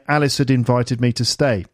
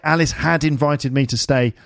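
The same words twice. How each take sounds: First: The word had is reduced to a d sound. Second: The word had is said fully and clearly. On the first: The speaker calls it right. "It's more just a d sometimes" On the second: The speaker calls it wrong. "we don't say"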